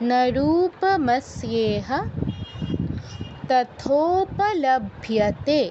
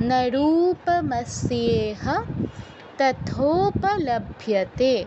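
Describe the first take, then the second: No difference in how they are said.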